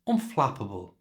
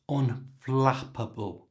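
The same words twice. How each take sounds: First: The word is said at normal speed. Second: The word is said slowly and carefully.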